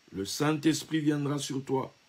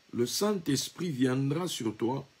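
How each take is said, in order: No difference in how they are said.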